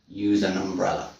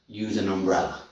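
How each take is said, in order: Both takes have the same delivery.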